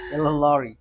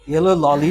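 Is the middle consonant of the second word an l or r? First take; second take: r; l. First: The second word has an r sound inside. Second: The second word has an l sound inside. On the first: The speaker calls it right. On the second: The speaker calls it wrong. "Yellow ললি না"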